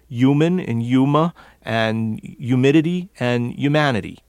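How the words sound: The H sound before the Y is dropped. "In this area, that H disappears before the Y sound"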